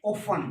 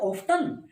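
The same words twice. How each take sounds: First: 'often' said as 'offen'; British often, silent t. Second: 'often' with a t; American often, t sounded. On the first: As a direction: drop the t in often. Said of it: "British में". ('ऑफन', 'ट' silent) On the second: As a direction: pronounce the t in often. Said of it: "American में". ('ऑफ्टन', 'ट' के साथ) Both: Shown as a demonstration.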